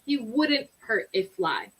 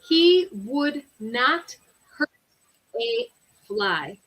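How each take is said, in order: First: The negative is contracted into one short word. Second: The negative is said as two full words.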